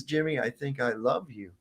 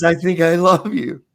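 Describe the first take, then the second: First: Said in the usual way. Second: Higher and louder, gushing; delighted declaration. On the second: Retold or imitated. Villain gushing at the man, higher and louder. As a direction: relish the creepy affection.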